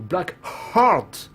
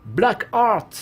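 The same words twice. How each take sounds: First: The h of 'Heart' is breathily pronounced. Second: The h of 'Heart' is silent.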